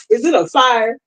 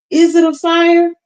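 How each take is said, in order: First: Said in the usual way. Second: "Is it a fire?" asked much higher, louder and slower; mock alarm. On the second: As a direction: play up fake panic about a fire. Joking about mic on fire.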